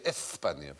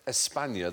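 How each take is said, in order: First: The S is said as a lisped th sound. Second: The S is said as a plain s sound. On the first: "they'd say España" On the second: "They wouldn't say España"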